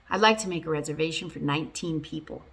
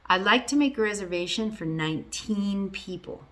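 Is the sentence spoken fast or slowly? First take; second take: fast; slowly. First: The sentence is spoken faster. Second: The sentence is spoken slowly. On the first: "I'll say it faster this time" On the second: "I did say it a little bit slowly"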